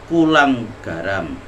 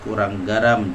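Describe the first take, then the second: First: The first word has an l sound. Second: The first word has an r sound. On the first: The speaker calls it wrong. "disebutnya kulang garam" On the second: The speaker calls it right. "kalimat kurang garam"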